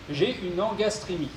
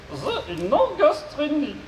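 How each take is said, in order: First: Said in the usual way. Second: High, slow robot voice with garbled consonants. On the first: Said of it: "je serai son interprète". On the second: Acted. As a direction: mangle the consonants like a glitchy robot. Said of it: "souffre d'une pathologie vocale".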